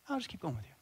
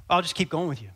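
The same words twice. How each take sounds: First: Very soft, understated repeat; quiet insistence. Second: Said in the usual way. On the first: Acted. Pack carrier repeating the offer to a baffled soldier, softly insistent. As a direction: say it small and quiet, not budging.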